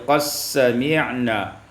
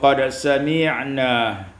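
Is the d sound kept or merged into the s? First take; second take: merged; kept. First: The d sound merges into a doubled s. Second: The d sound is pronounced before the s.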